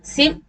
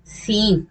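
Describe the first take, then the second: First: सिम with a brief i; quick short i in सिम. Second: सीम with a held ee; long ee. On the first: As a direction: clip the vowel in सिम short. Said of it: "और short". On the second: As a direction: lengthen the vowel in सीम. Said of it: "यानी long". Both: Shown as a demonstration.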